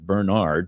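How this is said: The name is pronounced the American way. "across the pond may pronounce it Bernard"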